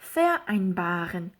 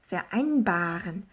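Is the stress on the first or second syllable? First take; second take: first; second. First: The stress is on the first syllable. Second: The stress is on the second syllable. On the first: The speaker calls it wrong. "요게 아니라" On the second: The speaker calls it right. "이렇게 발음을 해주는 게 맞다"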